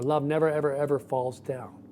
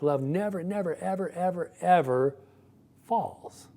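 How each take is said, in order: First: Never, ever, ever lightly stressed, falls down said evenly; the milder alternative reading; calmer version. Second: Never, never, ever, ever, ever piled up, each one pressed, falls high at the end; emphatic build. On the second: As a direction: stack the words and hammer each one. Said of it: "there's an emphatic". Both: Shown as a demonstration.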